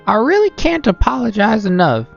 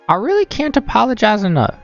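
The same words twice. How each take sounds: First: The voice drifts toward a southern accent. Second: The voice sounds like an old lady.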